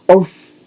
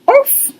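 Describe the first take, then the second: First: The bark is low in pitch. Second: The bark is high in pitch.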